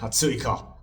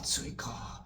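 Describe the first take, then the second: First: It is said mockingly and aggressively. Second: It is said musingly, as if to oneself.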